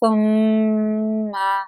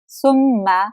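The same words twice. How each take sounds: First: The nasal sound is held with a hum. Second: The nasal sound is short, without a hum. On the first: The speaker calls it right. "नाक में आवाज़ को होल्ड करेंगे" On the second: The speaker calls it wrong. "इस तरह नहीं पढ़ सकते"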